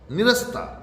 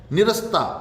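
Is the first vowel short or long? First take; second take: short; short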